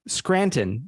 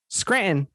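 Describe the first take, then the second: First: The middle T is clearly pronounced. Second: The middle T is dropped. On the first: This is how others say it. "I kept hearing it Scranton" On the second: This is how it is said at home. "I always said Scranton the same way"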